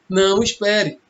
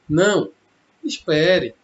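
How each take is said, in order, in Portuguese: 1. Não há pausa depois da primeira palavra. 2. Há uma pausa depois da primeira palavra. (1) "Olha só a entonação" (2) "A vírgula pode ser uma pausa ou não"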